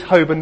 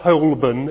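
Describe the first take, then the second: First: Holborn is said the local London way. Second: Holborn is said a non-London way. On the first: The speaker is from London. The speaker calls it right. "St. George's, Holborn, not Holborn" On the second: The speaker is not from London. The speaker calls it wrong. "If you pronounce it Holborn, you're not from London"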